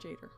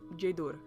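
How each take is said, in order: First: The final syllable has a plain vowel, not 'oo'. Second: The final syllable has an 'oo' vowel sound. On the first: The speaker calls it wrong. "It's not Jader" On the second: The speaker calls it right. "those make the oo sound, so it's Jaedur"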